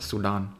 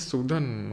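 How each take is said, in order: First: The name sounds like the country Sudan. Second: The name does not sound like the country. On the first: The speaker calls it wrong. "जिनको मैं पहले सुडान बोला करता था" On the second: The speaker calls it right. "सूदन होता है"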